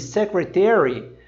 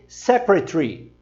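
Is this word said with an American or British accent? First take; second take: American; British. First: It is said in an American accent, all vowels full. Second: It is said in a British accent, one vowel dropped. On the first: "Enquanto os americanos dizem secretary" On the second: "os britânicos dizem secretary"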